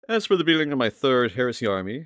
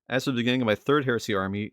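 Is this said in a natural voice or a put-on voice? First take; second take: put-on; natural. First: It is said in a put-on character voice. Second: It is said in his natural speaking voice. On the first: The speaker calls it wrong. "I don't know why I'm doing a voice" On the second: The speaker calls it right. "without the voice"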